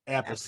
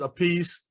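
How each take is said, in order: First: The name does not sound like 'a piece'. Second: The name sounds like the words 'a piece'. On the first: It is the family's original pronunciation. "Appice is the correct correct pronunciation" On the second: It is a play on words adopted later. "one pronounced it Apiece"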